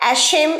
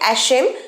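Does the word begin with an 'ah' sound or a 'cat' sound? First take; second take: cat; cat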